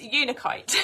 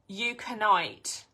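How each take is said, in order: First: The crystal name is said the standard way. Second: The crystal name is said a different, variant way. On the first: The speaker calls it right. "it's Unakite" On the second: The speaker calls it wrong. "I think she used to say Euconite"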